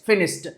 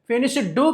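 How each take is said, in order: First: The word ends with a t sound. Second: The word ends with a d sound. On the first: The speaker calls it right. "టా చెప్పాలి" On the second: The speaker calls it wrong. "కాదండి"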